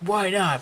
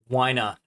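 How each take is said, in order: First: It is asked in a derogatory, accusing tone. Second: It is asked in a neutral, curious tone.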